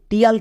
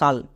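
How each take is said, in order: First: The syllable begins with a 't' sound. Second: The syllable begins with an 'sh' sound. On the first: The speaker calls it wrong. "টিয়াল কিন্তু না" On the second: The speaker calls it right. "এর উচ্চারণটা হবে সাল"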